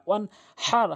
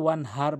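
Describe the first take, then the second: First: The h comes from deep in the throat. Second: The h is a light, ordinary h sound. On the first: The speaker calls it right. "হাটি হলকের মাঝখান থেকে উচ্চারণ করতে হবে" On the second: The speaker calls it wrong. "এখানে বড় হার জায়গায় ছোট হা এনে উচ্চারণ করে"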